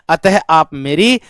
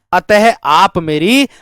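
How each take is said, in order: Both takes have the same delivery.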